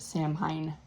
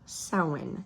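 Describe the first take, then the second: First: It is pronounced the way it is spelled. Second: It is pronounced differently from its spelling. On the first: This is how Americans usually say it. The speaker calls it wrong. "all of us Americans probably pronounce it Samhain because that's how it's spelled" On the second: This is how the name is really pronounced. The speaker calls it right. "apparently, it's pronounced Samhain"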